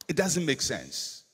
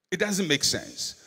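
The two takes are said the same way.

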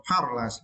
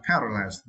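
First: "paralyzed" with open "ah" in the first syllable; first variant of "paralyzed", broad a; first pronunciation variant. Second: "paralyzed" with "eh" in the first syllable; second variant of "paralyzed", fronted a; second pronunciation variant. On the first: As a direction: say "paralyzed" as PAH-ra-lize. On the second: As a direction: say "paralyzed" as PEH-ra-lize. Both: Shown as a demonstration. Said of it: "sometimes I pronounce the word".

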